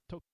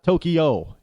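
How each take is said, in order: First: Tokyo as "TOH-kyo", two syllables, softly; no E between K and Y in Tokyo; Japanese pronunciation. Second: Tokyo drawn out in three syllables, "TOH-kee-oh"; American pronunciation. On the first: Correcting the mistake, soft two-syllable Tokyo. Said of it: "No E in between the K and the Y". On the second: Showing the mistake, slow three-syllable Tokyo. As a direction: put an E between K and Y in Tokyo. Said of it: "It's not Tokyo". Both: Shown as a demonstration.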